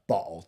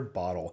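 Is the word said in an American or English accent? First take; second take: English; American. First: It is said in an English accent with a glottal stop. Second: It is said in an American accent. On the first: "with an exaggerated, stereotypical English accent" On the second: "the way us Americans say it"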